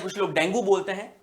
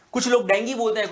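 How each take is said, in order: First: डेंगू said as "dengi", ending in "ee"; other way of saying dengue. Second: डेंगू said with a clear final "gu"; one way of saying dengue. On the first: Teacher showing the second common way to say डेंगू. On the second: Teacher showing the first common way to say डेंगू. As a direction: say डेंगू ending in "oo", as many people do. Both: Shown as a demonstration. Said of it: "दोनों ही बात सही है".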